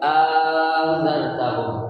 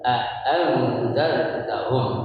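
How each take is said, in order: First: It starts with a long vowel, no second stop. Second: It starts with two clear glottal stops. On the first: "hamzah yang kedua dilebur menjadi apa? Menjadi huruf alif" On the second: "dengan menggunakan dua apaan tuh? Dua huruf hamzah. ... Itu dengan jelas tuh"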